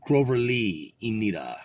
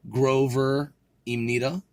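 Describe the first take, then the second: First: "Grover Lee Imnida" dropping at the end; statement intonation. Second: "Grover Imnida" slow, rising like a question; questioning intonation. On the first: Shown as a demonstration. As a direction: let "Imnida" fall like a statement. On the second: Real, not acted. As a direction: lift the end of "Imnida" questioningly. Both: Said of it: "Sounds like a question".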